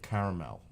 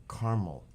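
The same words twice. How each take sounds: First: "caramel" in three syllables, middle vowel kept. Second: "caramel" with its middle vowel dropped, CAR-mel; two-syllable caramel. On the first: Streamer offering the other way, "caramel" as CARE-uh-mel. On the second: Streamer wondering how to say it, "caramel" as CAR-mel. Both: Shown as a demonstration. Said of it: "How would you say it?".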